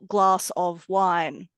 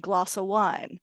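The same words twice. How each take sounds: First: The word 'of' is said in full. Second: The word 'of' loses a sound.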